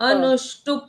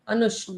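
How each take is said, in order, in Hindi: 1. शब्द का अंत पूरे पा अक्षर से होता है। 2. शब्द का अंत आधे प की ध्वनि से होता है। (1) "प का उच्चारण पूर्ण आता।" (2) "प को आधा पढ़ना है।"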